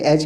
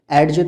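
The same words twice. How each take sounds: First: "एज" ending in J, no D; correct pronunciation. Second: "एडज" with D before J; wrong pronunciation. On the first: Teacher showing how it is said, correctly pronounced. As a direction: say "एज", D silent. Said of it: "कहते हैं". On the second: Teacher showing what cannot be said, mispronounced. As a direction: pronounce the D in "एडज". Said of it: "नहीं कह सकते". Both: Shown as a demonstration.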